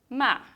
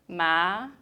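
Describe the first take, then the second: First: The pitch falls sharply from high to low. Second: The pitch rises from middle to high.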